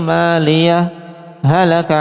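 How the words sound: A brief stop comes after maliyah, before halaka. "cara yang pertama dengan as-saktu ala ha... Sakta"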